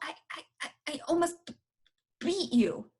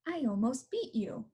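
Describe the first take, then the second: First: Tense speech with the first word repeated. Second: Relaxed, smooth speech without any repetition. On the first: The speaker calls it wrong. "that sounded too tight" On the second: The speaker calls it right. "again with just right speech"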